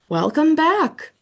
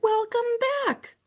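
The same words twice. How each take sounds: First: Slow, louder, hearty greeting; mad scientist voice. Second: Very high squeaky call; hamster shouting. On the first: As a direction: boom it out like the principal. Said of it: "sounded just like Mister Morales". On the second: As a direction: squeak it from the top of the cage. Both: Acted.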